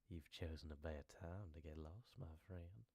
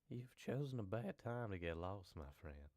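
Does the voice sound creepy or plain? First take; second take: creepy; plain. First: The voice sounds creepy and menacing. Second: The voice sounds plain and not very creepy.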